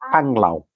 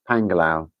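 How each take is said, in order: First: The name has two syllables, with no extra vowel. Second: The name has three syllables, with an extra vowel. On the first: The speaker calls it right. "Filipinos pronounce it Panglao" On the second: The speaker calls it wrong. "you say it like Pangalao"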